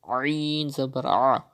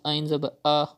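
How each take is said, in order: First: The vowel starts softly from the mid throat. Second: The vowel starts with a plain glottal catch. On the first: The speaker calls it right. "Pronounce it from the middle part of your throat softly" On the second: The speaker calls it wrong. "it is not correct. You are reading it as hamza"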